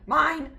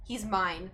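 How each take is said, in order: First: High, loud mock-possessive cry; hammed-up cry of MINE; possessive outburst. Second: Said in the usual way. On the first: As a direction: blurt MINE high and loud, staking a claim. Diary possessiveness, emphatic repeat.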